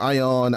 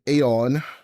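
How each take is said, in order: First: It starts directly with an 'eye' sound. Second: It starts with an added 'ay' sound. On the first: The speaker calls it wrong. "or Ion" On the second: The speaker calls it right. "the proper pronunciation would be Aeon"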